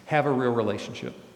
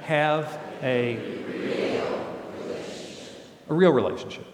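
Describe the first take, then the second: First: The word real gets no special emphasis. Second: The word real is strongly emphasized.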